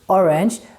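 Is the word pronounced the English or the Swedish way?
English. The word is said with an English pronunciation. "We write it the same way as in English"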